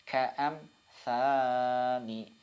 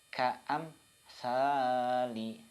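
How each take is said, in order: No difference in how they are said.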